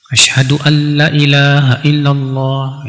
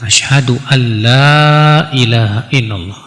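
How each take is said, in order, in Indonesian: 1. Vokal la dipendekkan. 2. Vokal la dipanjangkan. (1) "la-nya dipendekin" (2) "Sebab yang benar kan dipanjangkan"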